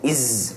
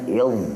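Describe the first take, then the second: First: The consonant sounds like z, tongue kept in. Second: The consonant sounds like th, tongue out. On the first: The speaker calls it wrong. "Kalau tak keluar lidah dia bunyi macam z. Iz, tak nak iz" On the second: The speaker calls it right. "dia kena il"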